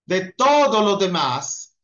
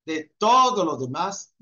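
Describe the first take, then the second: First: Loud, slow, every word leaned on; slow emphatic repeat. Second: Said in the usual way. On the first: Shown as a demonstration. Teacher to students, stressing the rule loud and slow. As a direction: hammer the phrase home to the class. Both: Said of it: "teacher drilling the rule".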